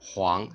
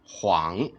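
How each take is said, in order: First: The pitch rises from mid to high. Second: The pitch dips low and then rises. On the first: "second tone" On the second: "third tone"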